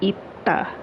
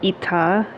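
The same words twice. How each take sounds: First: The t sound is held and emphasized. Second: The t sound is short and unemphasized. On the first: The speaker calls it right. "because you're emphasizing the ta" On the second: The speaker calls it wrong. "instead of saying ita"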